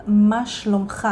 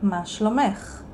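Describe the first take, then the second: First: "מה שלומך" said as ma shlomkha, to a man; "מה שלומך" with the masculine ending kha; male form. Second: "מה שלומך" said as ma shlomekh, to a woman; "מה שלומך" with the feminine ending ekh; female form. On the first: Teacher shows the form for a male, "מה שלומך" as ma shlomkha. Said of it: "So we say to a male". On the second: Teacher shows the form for a female, "מה שלומך" as ma shlomekh. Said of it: "and to a female". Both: Shown as a demonstration.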